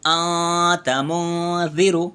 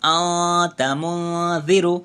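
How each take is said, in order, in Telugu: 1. 'n' శబ్దం ముక్కులో మృదువైన హమ్ లాగా దాగిపోతుంది. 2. 'n' శబ్దం ముక్కులో మృదువైన హమ్ లాగా దాగిపోతుంది.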